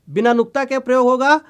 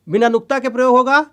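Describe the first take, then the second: Both takes have the same delivery.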